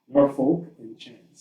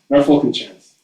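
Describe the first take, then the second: First: It is said at a normal, careful pace. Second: It is said very quickly, run together.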